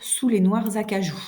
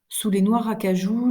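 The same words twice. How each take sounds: First: A z sound links noirs to acajou. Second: Noirs and acajou are said without a linking z. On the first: The speaker calls it right. "Je dois dire" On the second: The speaker calls it wrong. "je n'ai fait aucune liaison"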